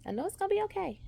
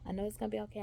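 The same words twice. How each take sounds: First: Nervous reassurance. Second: Said in the usual way. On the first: Real, not acted. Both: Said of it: "I am a bit nervous".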